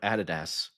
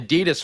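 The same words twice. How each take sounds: First: It is said the European way. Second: It is said the American way.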